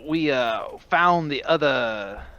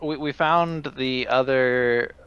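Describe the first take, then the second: First: It is said in a put-on character voice. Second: It is said in the speaker's natural voice.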